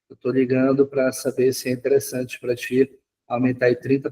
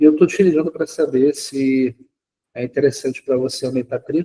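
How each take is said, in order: First: The voice is flat and without enthusiasm. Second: The voice is lively and full of enthusiasm. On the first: The caller will fail to warm up the lead. The speaker calls it wrong. "Monótono, sem entusiasmo nenhum" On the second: The caller creates a first connection with the lead. The speaker calls it right. "eu utilizei o mesmo script"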